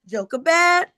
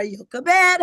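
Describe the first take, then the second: First: "Jochebed" with an English J, "JOH-kuh-bed"; J pronunciation. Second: "Jochebed" with a Y, "YOH-kuh-bed"; Y pronunciation. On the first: Teacher giving the mother's name, "Jochebed" begun with J. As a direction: start "Jochebed" on a J sound. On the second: Teacher giving the other form, "Jochebed" begun with Y. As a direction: start "Jochebed" on a Y sound. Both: Shown as a demonstration. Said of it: "however you like to pronounce it".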